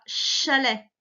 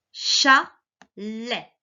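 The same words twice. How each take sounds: First: Said in the usual way. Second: "chalet" split in two with a clear gap; syllable-by-syllable reading. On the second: Shown as a demonstration. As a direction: read "chalet" one syllable at a time, slowly. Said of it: "lisons d'abord les mots".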